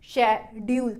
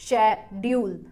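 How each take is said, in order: The two takes are said the same way.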